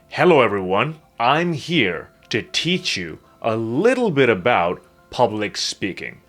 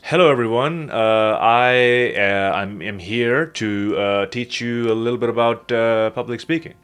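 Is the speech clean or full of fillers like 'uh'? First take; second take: clean; fillers. First: It is slower and smooth, with no filler sounds. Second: It is rushed and broken up by filler sounds. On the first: The speaker sounds more credible. The speaker calls it right. "When you slow yourself down and you pause" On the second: The speaker sounds less credible. The speaker calls it wrong. "I would also say, uh, um, uh, um, a lot during my speech"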